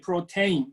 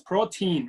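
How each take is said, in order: First: It is said with a Japanese-style pronunciation. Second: It is said with an English pronunciation. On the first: "Japanese we say protein" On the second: "but like it's protein, right?"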